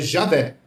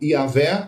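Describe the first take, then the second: First: The name begins with a 'zh' sound. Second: The name begins with a 'y' sound. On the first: "eles pronunciam J com o som de J do português" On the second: "a pronúncia do J no latim, que tem o som de I"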